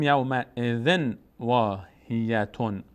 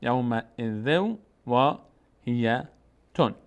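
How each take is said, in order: First: Slow اذن with clear n before واهیتون; unmerged tanwin. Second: Slow ذو واهیتون joined on w; tanwin merged into waw. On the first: Teacher shows what is not said, اذن with full n. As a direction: sound the n at the end of اذن. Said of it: "نمیگیم یوم اذن واهیتون". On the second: Teacher models the merger, ذو flowing into واهیتون. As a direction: drop the n, hold w from ذو into واهیتون. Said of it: "تنوین بعدش واو". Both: Shown as a demonstration.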